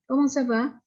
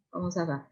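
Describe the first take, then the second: First: Comment ça va? starting high and lifting on va; rising question tune. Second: Comment ça va? softly dropping away on va; wrong falling tune. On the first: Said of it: "harus dengan nada yang naik". (Comment ça va? bernada tinggi, naik di akhir) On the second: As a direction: say Comment ça va? as a soft statement, falling. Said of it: "Ya, tidak boleh". (Comment ça va? pelan, nada turun di akhir) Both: Shown as a demonstration.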